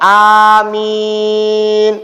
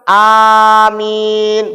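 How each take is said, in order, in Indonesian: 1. Vokal kedua ditahan lebih lama, empat ketukan. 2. Vokal kedua ditahan sebentar, dua ketukan. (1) "boleh empat harokat" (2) "Boleh dua harokat"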